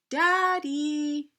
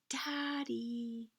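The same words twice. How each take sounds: First: It is said a little louder. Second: It is said very quietly.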